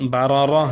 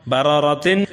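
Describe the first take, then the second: First: بارارہ with final "-tin" turned to h; pausal ha ending. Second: باراراتن ending in a sounded "-tin"; full form with tanween. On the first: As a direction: end بارارہ on a breathed h. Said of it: "بلکہ اس کو ہا سے بدلنا ہے". (بارارہ کے آخر میں ہا کی آواز نکالیں) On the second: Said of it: "وقفاً". (باراراتن کو تنوین کے ساتھ پورا پڑھیں) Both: Shown as a demonstration.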